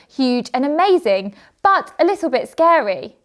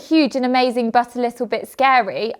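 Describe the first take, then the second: First: There is a short pause after amazing. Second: It runs on without a pause after amazing. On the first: The speaker calls it right. "I'd say" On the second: The speaker calls it wrong. "I wouldn't say"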